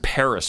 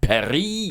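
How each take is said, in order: First: Paris is said with an American pronunciation. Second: Paris is said with a French pronunciation. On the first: The speaker calls it right. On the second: The speaker calls it wrong.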